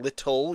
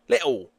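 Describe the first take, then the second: First: The middle T sounds are clearly pronounced. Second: The middle T sounds are dropped entirely. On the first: "instead of saying little" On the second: "you're not saying any of the T's"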